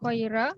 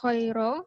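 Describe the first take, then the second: First: The r sound is thin and light. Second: The r sound is heavy and full.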